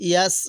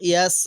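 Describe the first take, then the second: Both takes have the same delivery.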